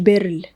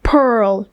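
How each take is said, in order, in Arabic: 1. الكلمة بتبدأ بصوت b. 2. الكلمة بتبدأ بصوت p. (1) "في ناس بتقول بيرل" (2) "pearl مش بيرل"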